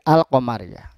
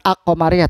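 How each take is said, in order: First: The 'al' is pronounced clearly and separately. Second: The 'al' is merged into the next sound. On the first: The speaker calls it right. "Alnya dibaca jelas" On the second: The speaker calls it wrong.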